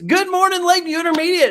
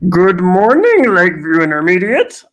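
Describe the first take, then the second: First: It is said in a normal voice. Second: It is said in a Yoda voice.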